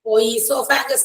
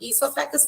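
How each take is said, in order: First: An 'o' sound is said before 'esophagus'. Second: The word starts directly with 'ee', no 'o'. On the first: The speaker calls it wrong. "ഓ ഈസോഫാഗസ് എന്ന് വായിക്കരുത്" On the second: The speaker calls it right. "ഈസോഫാഗസ് തന്നെയാണ്. ഓ is silent"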